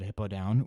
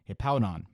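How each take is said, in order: First: The name sounds like 'hippo-down'. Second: The name sounds like 'hip-pow-don'. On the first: The speaker calls it wrong. "I've always called it" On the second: The speaker calls it right. "in actuality it is"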